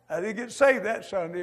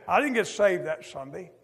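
First: "saved" punched as the key word of the repeat; preacher repeats, this time landing on "saved"; stress on saved. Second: "didn't" lifted and rising, leaned on hardest; preacher repeats the line, hitting "didn't"; stress on didn't. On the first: Preacher to congregation, leaning on "saved" the second time. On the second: Preacher to congregation, pressing "didn't" with a rising lift. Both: Shown as a demonstration.

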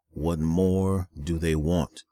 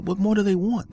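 First: Said in the usual way. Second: Exasperated. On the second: Real, not acted. Exasperated repeat of the question.

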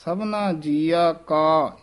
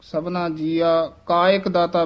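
First: Slow ਸਭਨਾ ਜੀਆ ਕਾ, ਕਾ kept apart from ਇੱਕ; slow, careful ਸਭਨਾ ਜੀਆ ਕਾ. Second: ਕਾ and ਇੱਕ run together as ਕਾਇਕ; the common slurred ਕਾਇਕ ਦਾਤਾ; ਕਾਇਕ as one word; wrong merged ਕਾਇਕ. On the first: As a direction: say ਕਾ fully, never ਕਾਇਕ. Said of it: "ਧਿਆਨ ਨਾਲ ਉਚਾਰਨ ਕਰਨਾ ਹੈ". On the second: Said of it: "ਬੋਲ ਜਾਂਦੇ ਹਨ". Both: Shown as a demonstration.

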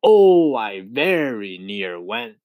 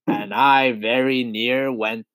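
First: Dramatic exclaimed repeat. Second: Chanted, slow, drawn-out line of verse; chanted, recite it steadily, stretching the words; measured verse chant. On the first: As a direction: cry out the first word, then draw out the rest. Centipede repeats line for dramatic effect. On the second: Centipede chanting his triumphant verse. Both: A narrator's reading.

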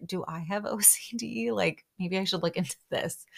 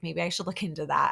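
First: Laughing self-mockery. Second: Said in the usual way. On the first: Real, not acted. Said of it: "I'm not laughing at that at all". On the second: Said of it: "I'm genuinely, like, I'm honestly like".

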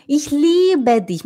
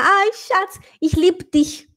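First: Slow Ich liebe dich, long i and full e in liebe; careful German; correct German. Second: Mock ich liebe dich with clipped lib; light mock foreign accent; foreigner's German. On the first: Shown as a demonstration. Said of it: "Fala assim". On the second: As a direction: imitate a foreigner swallowing the e. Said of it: "o estrangeiro falar".

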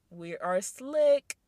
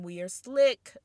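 First: Slow, drawn-out "slick", louder and savoring it; slow knowing stress. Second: "slick" hit louder at normal pace; stress on slick. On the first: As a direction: stretch "slick" out slow and sly. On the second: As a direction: land the word "slick" with a proud punch. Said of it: "'Cause women". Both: Real, not acted.

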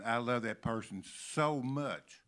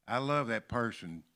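First: "so" stretched out and leaned on; stress on SO. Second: Said in the usual way. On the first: Shown as a demonstration. Preacher contrasting it with ordinary love, stress on SO. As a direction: lean long on the word "so". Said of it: "and then saying". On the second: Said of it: "whole lot of difference between saying".

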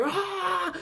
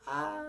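First: A high, full-throated rock-singer ah; wild rock-singer cry; intense rock yell. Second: A high but much softer ah; a limp, half-hearted ah like the band singing in English; timid rock cry; weak rock yell. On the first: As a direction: belt the ah with full force like the band singing in Spanish. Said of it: "en español es como que". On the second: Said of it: "y en inglés es como". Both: Shown as a demonstration.

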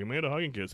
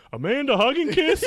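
First: Said in the usual way. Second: High, loud shouted question on "Amanda Hug and Kiss?"; yelling it out loud. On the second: Retold or imitated. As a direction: bellow "Amanda Hug and Kiss?" to the whole room, rising at the end. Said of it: "just yelling it fucking out loud".

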